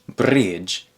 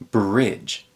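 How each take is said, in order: First: The R sounds foreign, not American. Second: The R sounds like American English. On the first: The speaker calls it wrong. "It's not bridge" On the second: The speaker calls it right. "it's bridge"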